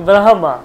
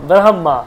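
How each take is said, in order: The two takes are said the same way.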